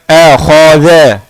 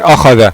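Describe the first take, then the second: First: The a vowels lean toward an e sound. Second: Every sound is said thick and heavy. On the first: "imalah atau taqlil" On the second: "semuanya tebal"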